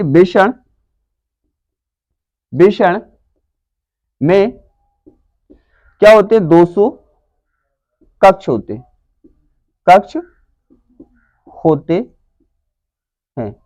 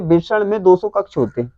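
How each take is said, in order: First: Word by word with long pauses; dictation. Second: Said in the usual way. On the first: Shown as a demonstration. Teacher dictates answer for writing. (लिखवाते हुए, शब्द-शब्द रुककर)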